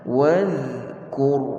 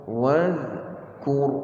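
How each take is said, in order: No difference in how they are said.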